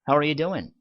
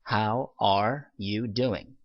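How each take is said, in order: First: The words are shortened and run together. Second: Every word is pronounced fully and separately.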